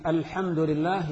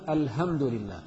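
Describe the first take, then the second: First: Said in the usual way. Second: "الحمد" said al-hamd with a soft ه instead of ح; ha for hha. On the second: Shown as a demonstration. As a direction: say "الحمد" as الهمد. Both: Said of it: "الحاء بالهاء".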